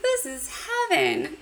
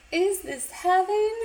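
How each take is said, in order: First: Wrong line, high. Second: High and slow "Is this heaven?" as the fixed quote; corrected line, higher and slow. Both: Retold or imitated. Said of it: "Or sorry".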